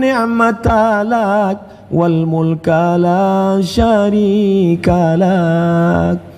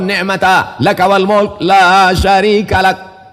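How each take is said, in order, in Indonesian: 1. Diucapkan dengan suara lembut dan halus. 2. Diucapkan dengan suara keras dan tegas. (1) "Coba agak lembut sedikit" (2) "Aku bersuara keras"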